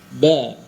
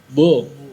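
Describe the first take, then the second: First: The syllable sounds thin and light. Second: The syllable sounds heavy and rounded. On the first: The speaker calls it right. "karakternya huruf ba adalah tipis" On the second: The speaker calls it wrong. "Tidak boleh bo"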